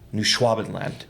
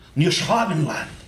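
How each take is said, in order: First: It is said in the speaker's ordinary accent. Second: It is said with a put-on German accent.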